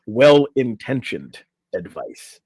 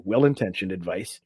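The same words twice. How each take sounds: First: WELL-INTENTIONED said slowly and louder; emphatic correction. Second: Said in the usual way. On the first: Real, not acted. Host correcting to the article's exact wording, slow emphasis on WELL-INTENTIONED. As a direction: stretch out "Well-intentioned advice", landing it firmly.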